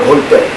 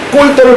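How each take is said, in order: First: The first consonant is plain. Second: The first consonant is tense. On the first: The speaker calls it wrong. "저는 성질 날 때가 한두 번이 아니다" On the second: The speaker calls it right. "지금 된 소리를 연음으로 발음하게 하는 것은 인위적으로 바꾸고 있다"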